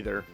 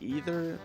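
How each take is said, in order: First: The word does not sound like 'either'. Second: The word sounds like the English word 'either'. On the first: The speaker calls it right. "I'm gonna say Aether" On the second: The speaker calls it wrong. "It's not either"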